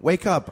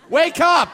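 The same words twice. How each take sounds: First: It is said in a sweet tone. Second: It is said in an aggressive tone.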